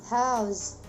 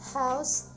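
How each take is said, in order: First: The word ends in a voiced z sound. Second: The word ends in a voiceless s sound. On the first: It is used as a verb. "with a voiced one" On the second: It is used as a noun. "the final voiceless consonant of a noun"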